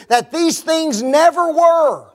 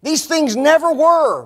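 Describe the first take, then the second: First: These things never were, slow, pitched up and louder; mock the claim slowly with a falling were; emphatic quote. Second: These things never were, punched on never with a fall; repeated for emphasis. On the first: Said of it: "watch this". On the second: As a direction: repeat it to hammer the point home. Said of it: "Got that?". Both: Shown as a demonstration.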